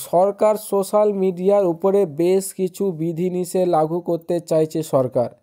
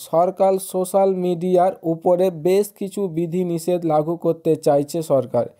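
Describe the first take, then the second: No difference in how they are said.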